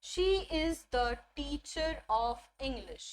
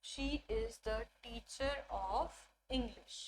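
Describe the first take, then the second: First: Very slow, each word laid out; slow teacher demo of a full sentence; slow model sentence. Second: Very slow and softer repetition; a quieter, slow second reading; softer repeat. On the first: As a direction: read it like a model for the class. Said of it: "best example मैं आपको बताती हूँ". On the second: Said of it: "best example". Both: Shown as a demonstration.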